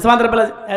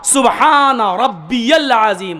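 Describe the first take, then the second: First: It is said in a quick, rushed way. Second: It is said slowly, every word clear.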